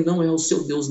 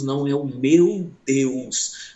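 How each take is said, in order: First: Said in the usual way. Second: Slow, meu drawn out and stressed. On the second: Acted. Preacher answering the doctor, slow stress on meu. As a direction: lean hard on meu, slowly. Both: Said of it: "contrast seu and meu Deus".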